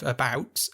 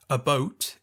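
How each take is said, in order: First: Said in the usual way. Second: "a boat" with the Canadian oh vowel; about said as "a boat". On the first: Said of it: "instead of". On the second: Retold or imitated. Imitating Jude Law's Canadian slip for a co-host, Canadian vowel in "a boat". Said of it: "picked up on him saying".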